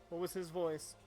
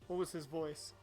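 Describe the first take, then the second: The two takes are said the same way.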